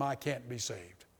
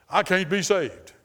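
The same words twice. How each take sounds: First: Quiet despair. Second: Louder, slow, emphatic quote of a despairing man. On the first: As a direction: let it sink, hushed and defeated. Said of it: "a man told me one time". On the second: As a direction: lean on it like a hopeless man. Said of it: "a guy did tell me this". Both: Retold or imitated.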